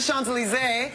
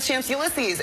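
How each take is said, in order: First: It is said with French pronunciation. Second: It is said with a strong American accent. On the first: The speaker calls it right. "how to really pronounce it is the Champs-Elysees" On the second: The speaker calls it wrong. "I read it on the map"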